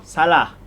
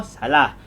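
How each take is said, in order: No difference in how they are said.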